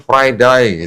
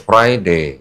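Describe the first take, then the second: First: It is said in an Australian accent. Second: It is said in a British accent.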